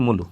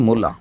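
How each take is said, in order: First: মুলু said with both vowels rounded u; rural vowel shift. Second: Said in the usual way. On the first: Shown as a demonstration. Teacher shows how villagers say mula. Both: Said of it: "মুলাটাকে যদি একটু change করি".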